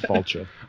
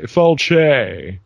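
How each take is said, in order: First: The word is said in a plain, simple way. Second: The word is said in a fancier-sounding way. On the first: The speaker calls it right. "instead of Falche" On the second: The speaker calls it wrong. "people here want to make it sound fancier, so they say Falche"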